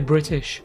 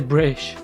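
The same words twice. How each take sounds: First: The T in the middle is clearly pronounced. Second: The T in the middle is dropped entirely. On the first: "I say some T's" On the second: "I won't say British"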